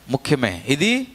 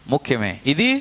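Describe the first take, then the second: No difference in how they are said.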